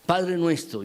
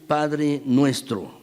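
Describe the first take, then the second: First: Said in the usual way. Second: "Padre nuestro" drawn out slowly, each word weighed; stressed slowly. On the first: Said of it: "quiero hacer énfasis". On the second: Shown as a demonstration. Preacher stressing the prayer's opening to the congregation, slowly. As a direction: lay it down slowly, leaning on "nuestro". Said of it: "quiero hacer énfasis ahora en la segunda palabra".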